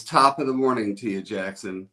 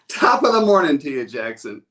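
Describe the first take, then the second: First: Said in the usual way. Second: Louder, higher, a hearty call to the crowd; loud cheerful greeting. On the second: Shown as a demonstration. Host calling to his livestream viewers, loud and cheery. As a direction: belt it out like a morning toast. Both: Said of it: "Say it".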